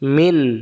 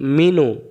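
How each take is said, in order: First: The word ends cleanly on the 'n' sound. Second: The word ends with an open 'u' vowel. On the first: The reading stops at this word. "দম ফেলার জায়গা দিলাম, এবার আর মিনু হবে না" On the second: The reading continues without stopping here. "নুন পেশ নু, মিনু।"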